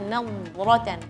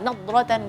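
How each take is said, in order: First: The dhad sound is given more time. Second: The dhad sound is rushed and very short. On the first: The speaker calls it right. "kasih waktu saja" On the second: The speaker calls it wrong. "Jangan terlalu cepat. Nadratan enggak"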